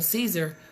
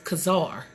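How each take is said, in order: First: The word begins with an S sound. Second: The word begins with a K sound. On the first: The speaker calls it wrong. "when we think we saying Caesar" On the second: The speaker calls it right. "It's the K sound"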